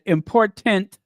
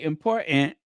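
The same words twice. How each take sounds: First: The middle T sound is clearly pronounced. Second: The middle T sound is dropped or swallowed. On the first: The speaker means business. "I said important, then you know I mean business" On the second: The remark is casual. "since I didn't say important"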